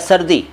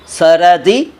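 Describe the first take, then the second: First: The r runs straight into d with no vowel. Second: A vowel is heard between r and d. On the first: The speaker calls it right. "सर्दी ठीक है" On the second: The speaker calls it wrong. "सरदी गलत है"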